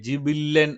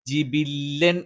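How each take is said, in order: First: The vowel after b is not a clear i. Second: The vowel after b is a clear i. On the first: The speaker calls it wrong. "എന്നൊന്നും ആയി പോകരുത്" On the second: The speaker calls it right. "എന്ന് തന്നെ ഉച്ചരിക്കാം"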